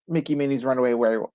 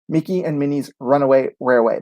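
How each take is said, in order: First: The name is rushed quickly and stumbled over. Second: The name is said slowly and carefully. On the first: The speaker calls it wrong. "I can never say it if I try to just go through it" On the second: The speaker calls it right. "I have to slow it down"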